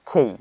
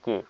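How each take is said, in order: First: The k is said with a strong puff of air. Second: The k is said without a puff of air. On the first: The speaker calls it right. "এটা হয়ে যাবে খেই" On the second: The speaker calls it wrong. "আমরা এই খেইকে বলতাম কে"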